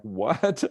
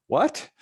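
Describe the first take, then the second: First: Said in the usual way. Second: "What?" jumps much higher and louder with a laugh; incredulous. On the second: Retold or imitated. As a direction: squeak it in disbelief, laughing. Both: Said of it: "And they're like".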